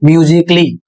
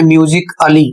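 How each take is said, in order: First: "म्यूजिकली" joined as myoo-zik-lee, A silent; correct pronunciation. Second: "म्यूजिक अली" with a separate, sounded a-lee; wrong pronunciation. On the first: Teacher modelling the word for learners, correct pronunciation. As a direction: drop the A in "म्यूजिकली". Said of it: "इसका सही उच्चारण होगा". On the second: Teacher showing learners a misreading, wrong pronunciation. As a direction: split "म्यूजिक अली" into myoo-zik plus a-lee. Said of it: "तो गलत पढ़ रहे हैं आप". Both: Shown as a demonstration.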